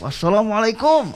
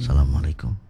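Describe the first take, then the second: First: It is said loudly, like a shout. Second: It is said quietly, as to a neighbour.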